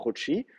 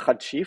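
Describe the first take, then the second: First: Chouchi with an o sound in the first syllable; teacher giving the correct Chouchi; correct reading. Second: Chachi with a open a vowels, the mistaken reading; teacher showing the wrong Chachi. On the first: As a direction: say Chouchi the right way, with o. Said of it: "faut le lire Chouchi". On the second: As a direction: say Chachi as the error to avoid. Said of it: "faut pas le lire Chachi". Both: Shown as a demonstration.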